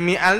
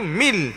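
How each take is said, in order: First: The 'a' after 'mi' is pronounced. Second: The 'a' after 'mi' is dropped. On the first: The speaker calls it wrong. "dia tak jadi mi'al dah" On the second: The speaker calls it right. "Maka jadi mil terus"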